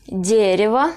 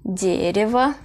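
First: Дерево with the stress on the first syllable; Russian word, model reading. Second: Дерево, stress on the first syllable, later vowels reduced; model repeat. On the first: (дерево, ilk hece vurgulu) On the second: (дерево tekrar, ilk hece vurgulu) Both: Shown as a demonstration. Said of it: "ilk hece vurgulu".

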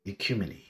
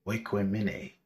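First: Ecumene said as "ih-KYOO-muh-nee"; first pronunciation. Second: Oikumene said as "way-kweh-mi-nay"; alternative pronunciation. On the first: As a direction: begin Ecumene with a short ih, end in nee. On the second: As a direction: open Oikumene with a gliding w sound. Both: Shown as a demonstration.

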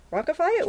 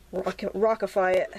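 First: "Rockify" rising high, delighted at the new word; amused surprise. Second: Said in the usual way. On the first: Real, not acted. Painter savoring her made-up word "Rockify" with surprise. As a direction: question "Rockify" back to yourself, tickled. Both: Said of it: "that's a good word".

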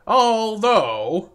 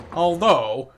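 First: ALTHOUGH stretched out, higher and louder; big, lingering stress on ALTHOUGH; exaggerated emphasis. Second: Said in the usual way. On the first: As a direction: draw out ALTHOUGH in a raised voice. Escalated repeat of the word.

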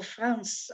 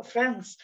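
First: France with a French nasal vowel; France, Frahnce with nasal vowel; French pronunciation. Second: Said in the usual way. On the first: Shown as a demonstration. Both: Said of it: "I wanna do this French accent".

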